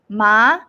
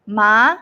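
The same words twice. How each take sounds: First: The pitch rises upward. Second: The pitch rises upward.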